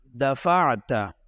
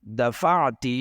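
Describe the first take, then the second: First: دفعت said dafata, open final a; دفعت ending on a clear fatha, dafata; دفعت read as masculine dafata; masculine you pushed. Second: دفعت said dafati, short final i; دفعت ending on a kasra, dafati; دفعت read as feminine dafati; feminine you pushed. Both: Shown as a demonstration.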